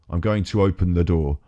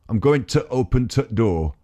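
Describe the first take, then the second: First: The word 'the' is said in full. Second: The word 'the' is cut to a 't' sound.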